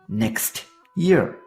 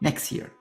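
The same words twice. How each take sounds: First: The final T of next is pronounced. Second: The final T of next is dropped. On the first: The speaker calls it wrong. "don't you think it sounds awkward?" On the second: The speaker calls it right. "we drop the T in next"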